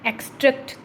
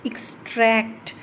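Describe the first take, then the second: First: The stress is on the first syllable. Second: The stress is on the second syllable. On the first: "पहले वाला इस पे ज़्यादा stress आ रहा है" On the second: "ट्रैक्ट को हम लंबा बोल रहे हैं"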